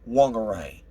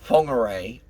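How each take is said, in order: First: The name is said in an anglicized way. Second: The name is said the Maori way. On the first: The speaker calls it wrong. "lots of people that call Whangarei" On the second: The speaker calls it right. "I have the courtesy to pronounce them correctly"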